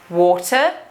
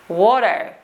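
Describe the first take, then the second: First: The middle T is a clear T. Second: The middle T is a glottal stop.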